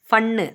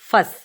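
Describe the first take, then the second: First: A clear n sound is pronounced in the word. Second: The n sound is silent in the word. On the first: The speaker calls it wrong. "ஃபன்னு அப்படின்னு படிக்கக்கூடாது" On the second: The speaker calls it right. "So அது silent"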